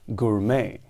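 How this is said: It is said with an English pronunciation. "in English quite simply as gourmet"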